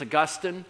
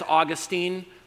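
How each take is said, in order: First: The name is said the standard way. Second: The name is said the Florida way. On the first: The speaker calls it right. "if you want to say it right, it's Augustine" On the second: The speaker calls it wrong. "if you're from Florida, it's Augustine"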